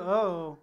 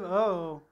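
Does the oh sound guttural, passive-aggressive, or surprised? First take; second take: passive-aggressive; passive-aggressive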